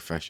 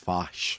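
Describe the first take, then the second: First: The vowel sounds like the 'i' in 'fish'. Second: The vowel sounds like the 'a' in 'fash'. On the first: This is how it is said in Glasgow. "in Glasgow they say fish" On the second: This is how it is said further north. "even up north, they- it's fash"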